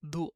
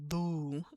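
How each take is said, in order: First: The vowel is cut short with a stop. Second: The vowel is held long at the end. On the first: The speaker calls it right. "we're gonna stop the wow a little bit early" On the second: The speaker calls it wrong. "instead of saying like do"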